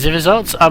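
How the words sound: It is read in a put-on, German-sounding villain voice. The speaker calls it wrong. "that's the classic evil scientist voice"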